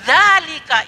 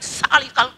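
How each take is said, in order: First: The word begins with a z-like sound. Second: The word begins with an s sound. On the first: The speaker calls it right. "zalika itu" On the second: The speaker calls it wrong. "tidak ada salika"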